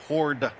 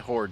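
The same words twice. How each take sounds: First: The final D sound is clearly pronounced. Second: The final D sound is barely heard. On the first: The speaker calls it right. "there's a D on that" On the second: The speaker calls it wrong. "I probably didn't enunciate that correctly"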